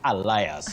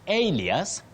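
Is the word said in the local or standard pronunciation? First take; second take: local; standard. First: It is said in the common local pronunciation. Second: It is said in the standard pronunciation. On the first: The speaker calls it wrong. "not alias" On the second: The speaker calls it right. "And alias"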